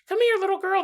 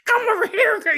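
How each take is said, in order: First: It is said in a Mickey Mouse voice. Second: It is said in a Donald Duck voice.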